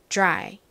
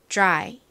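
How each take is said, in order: Both takes have the same delivery.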